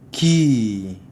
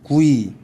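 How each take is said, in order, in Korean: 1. u는 소리가 안 나서 음절이 하나예요. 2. u는 따로 모음으로 소리 나요. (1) "이거는 기" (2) "여기는 구이"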